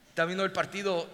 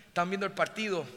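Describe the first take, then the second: No difference in how they are said.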